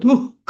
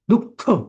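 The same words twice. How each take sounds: First: The visarga is a plain breathy h sound. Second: The visarga is a throaty kh-like friction. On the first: The speaker calls it wrong. "असं कधीच म्हणायचं असतं" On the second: The speaker calls it right. "तेव्हा त्या विसर्गाचा ख होतो"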